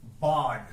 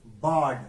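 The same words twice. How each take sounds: First: board said louder, one falling syllable; word announced. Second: board repeated louder with a firm fall; word repeated. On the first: Teacher announces the new word board loudly to students. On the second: Teacher repeats board louder so students catch it. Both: Shown as a demonstration. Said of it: "वो कौन सा word है?".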